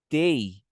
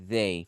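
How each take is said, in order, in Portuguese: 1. A palavra começa com som de t. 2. A palavra começa com som de th sonoro. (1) "tei com som de T, de tatu" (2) "vibrando ... fica mais padrão a sua pronúncia"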